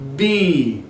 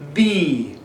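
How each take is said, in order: First: It uses the pronunciation for words starting with vowels. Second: It uses the pronunciation for words starting with vowels.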